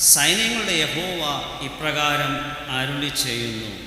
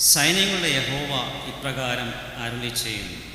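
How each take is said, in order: The two takes are said the same way.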